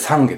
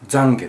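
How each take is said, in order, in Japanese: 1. 「懺悔」の最初の子音は無声音です。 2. 「懺悔」の最初の子音は有声音です。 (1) "仏教では懺悔ですからね。濁ら" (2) "キリスト教なんかだと懺悔っていうじゃないですか"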